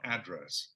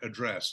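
First: The word is said in an American way. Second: The word is said in a British way. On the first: The speaker calls it wrong. "not address ... I do say it like the Americans say it" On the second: The speaker calls it right. "I have to think about saying things like address"

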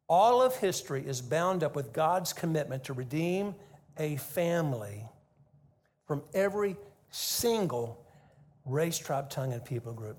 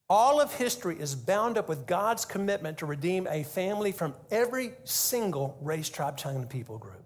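First: It is said slowly. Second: It is said fast.

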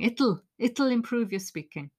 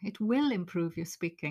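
First: "It will" is contracted to one short syllable. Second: "It will" is said as two full words.

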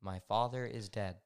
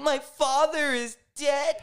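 First: It sounds flat and artificial. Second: It sounds showily upset and emotional.

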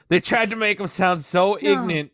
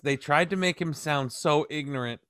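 First: Ignorant is said in a clipped country-style pronunciation. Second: Ignorant is said with a plain, standard pronunciation. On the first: The speaker calls it right. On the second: The speaker calls it wrong.

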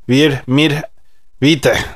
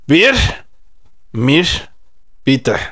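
First: It is said at normal speed. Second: It is said more slowly.

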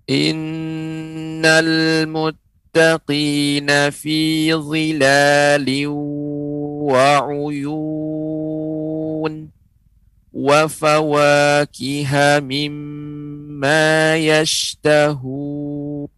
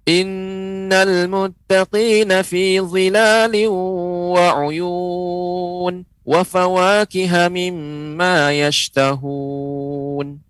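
First: It is recited at a slow pace. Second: It is recited at a fast pace. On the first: "Bacaan lambat atau tahqiq" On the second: "bacaan hadar, ya, bacanya dengan cepat"

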